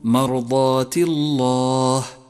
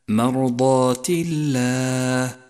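First: The l in Allah is heavy. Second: The l in Allah is light. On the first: The speaker calls it wrong. "فاحذر أن تقول مرضات الله، وهذا خطأ شنيع" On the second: The speaker calls it right. "جاء مرققا لأنه مسبوق بكسر"

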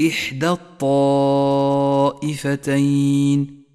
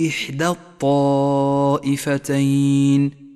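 No difference in how they are said.

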